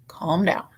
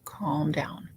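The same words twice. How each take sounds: First: Said in the usual way. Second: Soft unvoiced whisper of Calm down; whispered Calm down to herself. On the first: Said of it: "Calm down (whispered repeat)". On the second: Real, not acted. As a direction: hush yourself, breathe Calm down. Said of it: "Calm down (first take)".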